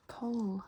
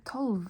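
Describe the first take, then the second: First: Tolv said as "tol", final V dropped; tolv without V. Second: Tolv said with a clear final V, the spelled way. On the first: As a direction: say Tolv, just the first three letters. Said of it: "just say the first three letters". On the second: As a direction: sound out every letter of tolv, V included. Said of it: "Don't say tolv". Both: Shown as a demonstration.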